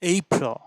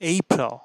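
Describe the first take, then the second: Both takes have the same delivery.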